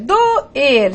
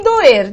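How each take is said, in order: First: "doer" split in two, do, then er; syllables separated. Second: Said in the usual way. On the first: Shown as a demonstration. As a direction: break "doer" apart between the vowels. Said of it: "Com separação silábica". ("doer" separado em sílabas: do-er)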